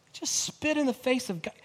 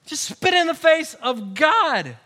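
First: Said in the usual way. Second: Louder, higher preaching punch; forceful repeat. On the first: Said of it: "repeated line, second shouted". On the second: Real, not acted. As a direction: drive it home to the congregation. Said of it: "repeat louder".

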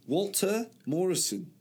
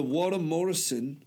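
First: "Walter" higher, with the L and T sounded; careful pronunciation. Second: Said in the usual way. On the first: Real, not acted. Correcting the name for friend, "Walter" pronounced carefully. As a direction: sound out "Walter" fully, pitched up.

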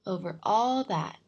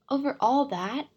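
First: Slow, loud "all that", falling with certainty; answering. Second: "all that" higher, louder, rising in a question. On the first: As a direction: answer firmly, stretching "all that" downward. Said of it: "the king answered". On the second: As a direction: ask it, lifting "all that" in surprise. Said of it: "asked the little prince". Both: A narrator's reading.

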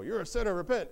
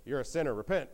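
First: Higher, louder mock rebuke; escalated accusation. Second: Understated retold rebuke; mild accusation. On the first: Job's friends insist he must repent, raised-voice accusation. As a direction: hammer the accusation home, voice raised. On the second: Job's friends first tell him to repent, mild accusation. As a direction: accuse with a touch of firmness.

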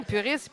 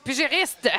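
First: Searching for puriste, softer and trailing; reaching for puriste, unsure; fumbled word. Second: Puriste blurred toward pugiliste; mangled word. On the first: Searching for the word puriste, unsure. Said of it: "je suis, voyons". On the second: Mixing up the word Puriste with pugiliste. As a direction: say Puriste as a half pugiliste blend. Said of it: "t'as mélangé pugiliste et puriste". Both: Shown as a demonstration.

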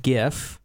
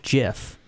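First: "gif" with a hard G, as in gift. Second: "gif" with a soft G, like "jiff". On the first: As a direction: say "gif" starting like "give". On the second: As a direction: say "gif" starting like "jam". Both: Shown as a demonstration. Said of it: "whether it should be gif or gif".

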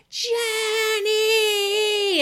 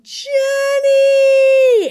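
First: High wailing cry of the name, close to tears; desperate scream. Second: Long, high, loud scream of the name. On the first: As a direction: cry the name out as if all hope is gone. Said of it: "hearing my mother screaming and screaming". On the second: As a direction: call out in full panic from the stairs. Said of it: "she's screaming my sister's name". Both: Retold or imitated.

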